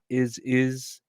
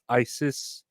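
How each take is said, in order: First: The first syllable sounds like the word 'is'. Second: The first syllable sounds like the word 'eye'. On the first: The speaker calls it wrong. "Not is is" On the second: The speaker calls it right. "with the I and then the sis"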